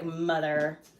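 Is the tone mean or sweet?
mean. It is said in a mean, harsh tone.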